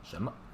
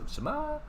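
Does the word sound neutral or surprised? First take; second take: neutral; surprised. First: It is said plainly with a light second syllable. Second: It is said loudly with stress, sounding surprised. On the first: It is an ordinary question. "it's not going to stress. No tongue at all" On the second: The speaker finds something outrageous. "as if it's really out, outrageous, really surprised"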